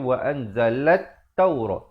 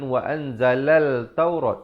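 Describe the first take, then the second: First: No L sound; it merges into the T. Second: A clear L sound comes before 'taurat'. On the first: The speaker calls it right. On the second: The speaker calls it wrong. "jangan dibacakan"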